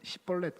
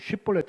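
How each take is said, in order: First: The first syllable begins with a plain 's' sound. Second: The first syllable begins with an 'sh' sound. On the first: The speaker is an Ephraimite. The speaker calls it wrong. "에브라임 사람들은 ... 시볼렛 그런데요" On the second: The speaker is a Gileadite. The speaker calls it right. "쉿볼렛 해봐라"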